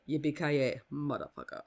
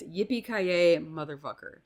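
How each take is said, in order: First: Hans's way. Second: Said in the usual way. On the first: Acted. Podcaster quoting the film's villain for listeners, lightly imitated Hans. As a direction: say it as Hans does, r's dropped. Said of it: "or as Han says it". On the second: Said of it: "but it's".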